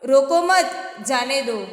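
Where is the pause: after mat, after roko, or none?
after mat. There is a pause after the second word. Do not stop them, let them go. "उनको रोको मत जाने दो।"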